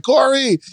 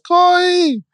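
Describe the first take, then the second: First: Put-on high-pitched sing-out call to a child; imitated call, pitched well up; parent calling out. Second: Put-on very high toddler voice calling out; squeaky, drawn-out child's copy of a call; mimicking little child. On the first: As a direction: call your daughter by name. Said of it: "I'll call my daughter Corey". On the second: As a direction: echo the call as a small child would. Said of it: "And Sarai says".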